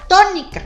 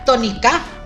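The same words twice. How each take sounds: First: The stress is on the first syllable. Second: The stress is on the last syllable.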